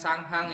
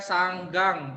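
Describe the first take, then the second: First: The second syllable begins with an h sound. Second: The second syllable begins with a g sound. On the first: The speaker calls it wrong. "bukan Sanghang" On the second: The speaker calls it right. "bacanya Sanggang"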